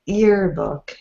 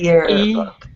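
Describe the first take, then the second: First: The word starts with a plain vowel sound. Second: The word starts with a clear Y sound. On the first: The speaker calls it wrong. "we're still hearing earbook" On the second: The speaker calls it right. "not yearbook"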